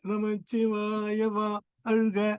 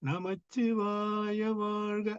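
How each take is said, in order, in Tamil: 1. நெடில் தனி அசையாகப் பிரிந்து வரும். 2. நெடில் நீண்டு, ஒரே சொல்லாகச் சேர்ந்து வரும். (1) "வா அழ்க அழுகன்னு தனியா படிக்கிறாங்க" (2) "வா ஆவும் சேர்த்து ஒரே ஓசை ... மூன்று அளவாக"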